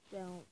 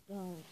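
The two takes are said the same way.

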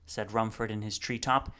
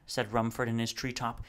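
The two takes are said the same way.

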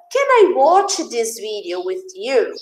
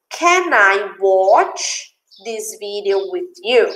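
First: Said in the usual way. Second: Slow, spaced-out question for learners; slow model reading. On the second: Shown as a demonstration. Teacher repeats dad's question for students, slow model reading. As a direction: draw the question out word by word.

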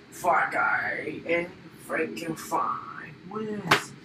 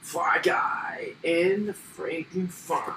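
First: Soft whispered announcement; whispering. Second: Said in the usual way. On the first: Pretend. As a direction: breathe it as a secret. Winner line whispered.

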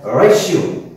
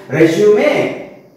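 First: Two syllables in "resume", closing on the "m"; alternative pronunciation of resume. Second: Three syllables in "Resume", ending in "may"; first pronunciation of resume. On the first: Teacher showing the other pronunciation to online class, "resume" as re-zyoom. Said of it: "It is also pronounced as". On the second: Teacher showing one pronunciation to online class, "Resume" as rez-yoo-may. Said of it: "it's a one pronunciation". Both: Shown as a demonstration.

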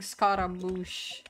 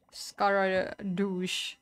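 First: Said in the usual way. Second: "Scaradouche" slow, with "doosh" as the ending; nickname mispronunciation. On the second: Shown as a demonstration. Trying someone's silly name for Scaramouche, slow "Scaradouche" with a D. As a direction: stretch out "Scaradouche", D in place of M. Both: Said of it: "who called Scaramouche Scaradouche".

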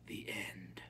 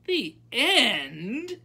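First: Low, soft, final; hushed, unmoved ending; calm finality. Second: High, loud, indignant question; outraged high-pitched echo. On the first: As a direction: close the matter quietly. Grandmother repeats it calmly. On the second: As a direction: challenge it loudly in disbelief. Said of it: "said Abilene indignantly". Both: A narrator's reading.

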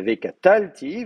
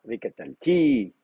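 First: "V catal, ti" with TAL punched loud; accent the TAL in "V catal, ti", not the ending; "V catal, ti" stressed on its next-to-last syllable. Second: "V catal, ti" with the accent dropped onto TI; "V catal, ti" ending on a stressed, drawn-out TI; stress on final TI. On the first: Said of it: "Et au lieu d'avoir". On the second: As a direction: keep "V catal" light, then land hard on "ti". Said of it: "vous mettez V". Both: Shown as a demonstration.

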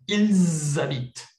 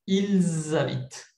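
First: Ils habitent said slowly with a z sound linking Ils to habitent; liaison demo. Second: Ils habitent said slowly again with a clear z linking Ils to habitent; repeated liaison demo. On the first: Teacher models the obligatory liaison for students. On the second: Teacher repeats the obligatory liaison for the class. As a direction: repeat it for learners. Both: Shown as a demonstration. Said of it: "Ça, c'est obligatoire".

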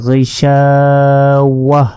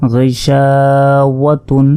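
First: গইশাওয়াহ chanted slowly, closing on a breath of h; pausal h ending. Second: গইশাওয়াতুন chanted slowly, ending in a sounded -tun; slow recital of গইশাওয়াতুন with long shaa; full unpaused ending. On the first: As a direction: drop the tun and end গইশাওয়াহ on a silent-vowelled h. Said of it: "হা হিসাবে উচ্চারণ করতে হবে এবং সাকিন". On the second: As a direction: keep the tun at the end of গইশাওয়াতুন. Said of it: "এখানে যদি আমরা ওয়াকফ করি". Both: Shown as a demonstration.

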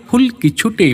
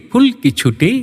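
Both takes have the same delivery.

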